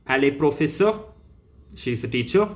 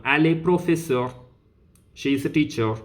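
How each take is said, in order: First: "professeur" and "teacher" lifting at the end; question intonation. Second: Said in the usual way. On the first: Shown as a demonstration. Teacher turning the statement into a question, "professeur" and "teacher" rising. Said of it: "then it becomes a question". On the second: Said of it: "which is an information".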